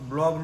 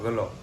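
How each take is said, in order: First: The word starts with a 'bl' cluster. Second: A vowel splits the cluster and the sounds move. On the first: This is the usual way to say the word. The speaker calls it right. "બ્લોગ બ્લોગ નો કે" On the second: This imitates how an elderly relative says it. The speaker calls it wrong. "એમ કે તું ગલોબ ઉતારે છો ગલોબ"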